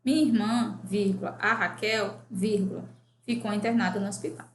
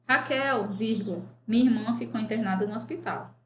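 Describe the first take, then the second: First: "a Raquel" tucked between pauses after "Minha irmã"; name the sister in a short inserted aside; explaining which sister Raquel is; Raquel as appositive. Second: "Raquel" set apart, with a pause before "minha irmã"; addressing Raquel directly; Raquel as vocative. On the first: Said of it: "Dê a frase em redação na qual Raquel só possa ser aposto". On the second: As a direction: call out "Raquel" first, then pause and give the news. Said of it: "Dê à frase uma relação na qual Raquel só possa ser vocativo". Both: Shown as a demonstration.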